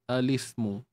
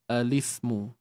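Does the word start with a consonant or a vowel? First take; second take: vowel; vowel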